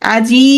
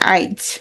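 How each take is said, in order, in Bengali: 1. 'i' ধ্বনিটি শব্দের শেষে আসে। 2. 'i' ধ্বনিটি শব্দের মাঝখানে আসে। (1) "এই যে এই শেষে ছিল" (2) "এটা মাঝখানে চলে আসবে।"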